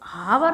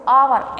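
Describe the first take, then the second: First: The word begins with an h sound. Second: The word begins with no h sound. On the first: The speaker calls it wrong. "हावर नहीं बोल सकते इसको" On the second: The speaker calls it right. "एच silent होता है"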